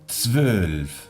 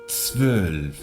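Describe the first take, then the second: No difference in how they are said.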